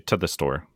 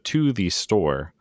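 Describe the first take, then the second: First: The word 'to' is reduced to 'ta'. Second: The word 'to' is said in full. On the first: "Ta. The store" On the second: "instead of to the store"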